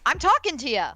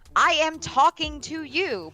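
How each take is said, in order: First: The words are run together in a relaxed way. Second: Each word is pronounced clearly and separately. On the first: The speaker is relaxed among friends. "if I'm hanging with a friend, I'm like" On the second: The speaker is in a formal setting. "when I'm talking in a presentation, I will enunciate"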